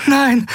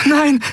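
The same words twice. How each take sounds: First: Anguished cry. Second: High breathless gasp of horror. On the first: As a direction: scream no in despair. Endriel sees Miko dying. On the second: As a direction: gasp it out in shock. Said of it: "keuchte Endriel". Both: Acted.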